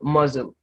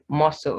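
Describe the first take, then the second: First: The middle consonant is a z sound. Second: The middle consonant is an s sound. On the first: The speaker calls it wrong. "not muzzle" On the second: The speaker calls it right. "This word is muscle"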